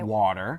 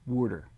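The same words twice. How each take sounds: First: It is said in a standard American accent. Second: It is said in a Philadelphia accent.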